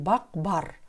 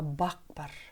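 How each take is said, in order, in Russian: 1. Второе слово начинается со звонкого Б. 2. Второе слово начинается с глухого П. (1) "Не бақ бар" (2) "а бақ бар. В слове бар буква Б произносится как П"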